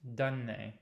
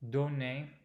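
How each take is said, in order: First: The vowel does not sound like a normal O. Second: The vowel is a normal, slightly open O. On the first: This is the general standard educated pronunciation. "It does not sound like letter O. ... that's the general standard so-called educated sound" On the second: This is how some speakers from the south and west say it. "who leave this sound a little open. So they use normal O"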